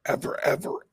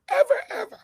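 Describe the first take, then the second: First: Breathy half-whispered ever, ever; hushed repeat. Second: High, loud ever, ever; emphatic high shout; shouted repeat. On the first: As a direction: whisper the words for emphasis. Repeats ever, first take hushed. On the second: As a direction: yell the words to drive it home. Repeats ever, second take shouted. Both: Real, not acted.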